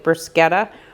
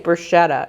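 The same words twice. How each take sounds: First: The middle consonant is a K sound. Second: The middle consonant is an SH sound. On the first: "with that K sound, like bruschetta" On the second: "I always want to say bruschetta"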